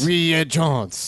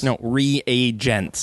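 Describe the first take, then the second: First: Reagents said as "ree-AY-zhants"; mispronounced. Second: Reagents said slowly, "ree-AY-jents"; correct pronunciation. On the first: Pretend. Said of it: "No, no". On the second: Shown as a demonstration. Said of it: "No, no. Hard, hard T".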